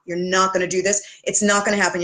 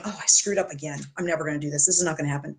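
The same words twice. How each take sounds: First: Said in the usual way. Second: Low, soft whiny moan; mock whine. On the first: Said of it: "Yeah, you know what, honey?". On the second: Client moaning about a failed weekend, mock whine. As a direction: whine it like a self-pitying client. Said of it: "you just kind of whine going".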